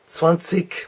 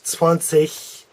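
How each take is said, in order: First: The word ends with a hard k sound. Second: The word ends with a soft ch sound. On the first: This is a more northern way of saying it. "zwanzig with a K sound. That's perhaps a little more northerly" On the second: This is a more southern way of saying it. "a soft C H, zwanzig, zwanzig. And you'll hear that maybe a little more south"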